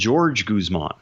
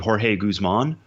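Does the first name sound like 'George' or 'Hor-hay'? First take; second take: George; Hor-hay. First: The first name is said like 'George'. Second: The first name is said like 'Hor-hay'. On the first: This is how the player wants to be called. The speaker calls it right. "wants to be called George Guzman" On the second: This is how people used to say the name. The speaker calls it wrong. "the man previously we believed to be Jorge Guzman"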